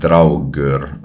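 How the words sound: It is said with Old Icelandic sounds. "in Old Icelandic it would be more like"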